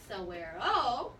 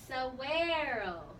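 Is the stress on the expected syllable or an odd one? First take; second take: odd; expected. First: The stress falls on an unusual syllable. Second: The stress falls on the usual syllable. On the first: The speaker calls it wrong. "It's not saguaro" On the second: The speaker calls it right. "So it says saguaro"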